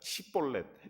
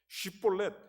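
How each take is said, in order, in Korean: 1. 이 단어는 s 소리로 시작해요. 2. 이 단어는 sh 소리로 시작해요. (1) "이 사람들이 시볼렛 이러는 거예요" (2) "쉬볼렛이라고 해봐라"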